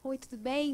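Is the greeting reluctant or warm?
reluctant. The greeting sounds reluctant and hesitant.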